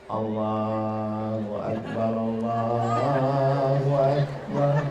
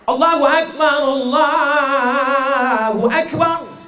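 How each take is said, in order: First: It is said quietly and timidly. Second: It is said loudly and strongly.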